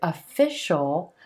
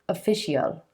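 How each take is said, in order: First: The ending is one syllable, a dark L. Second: The ending is two syllables, an ee sound then L. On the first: The speaker calls it right. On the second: The speaker calls it wrong.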